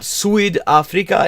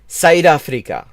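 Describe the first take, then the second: First: The first vowel sounds like an English vowel. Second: The first vowel falls between 'ow' and 'eye'. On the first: The speaker calls it wrong. "he's pronouncing it like English" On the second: The speaker calls it right. "sort of this halfway point between Au and I"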